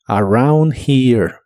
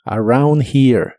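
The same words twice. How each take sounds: First: "around here" drawn out, here like jir; slow model phrase. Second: "Around here" au sound, here like jir; slow model phrase. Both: Shown as a demonstration. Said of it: "una J suave".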